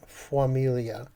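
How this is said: A small 'u' glide follows the f. "you might even get a U with that"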